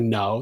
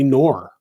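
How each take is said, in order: First: The word ends without an R sound. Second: The word ends with an added R sound. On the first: "They don't say no" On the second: "they put in too many R's. ... they say nor"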